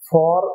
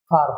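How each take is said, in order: First: The word is said with its full vowel. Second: The word is reduced to a quick 'far'. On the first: The speaker calls it wrong. "ফর না হয়ে" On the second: The speaker calls it right. "ফার হবে এবং উচ্চারণটি দ্রুত হবে"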